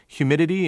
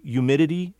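First: The word begins with a clear H sound. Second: The H is dropped, starting with a Y sound. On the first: "instead of" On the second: "that H disappears before the Y sound"

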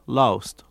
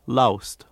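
No difference in how they are said.

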